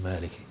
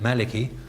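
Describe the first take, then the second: First: The first vowel is long. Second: The first vowel is short. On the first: "all you need to do is to supply a dagger alif" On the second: "you just, as it were, ignore that"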